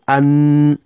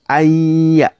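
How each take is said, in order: First: The n sound is pronounced fully and clearly. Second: The n merges into a doubled y sound. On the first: The speaker calls it wrong. "You don't say an" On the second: The speaker calls it right. "you say ayya"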